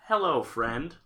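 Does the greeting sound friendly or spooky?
friendly. It is said in a plain, friendly way.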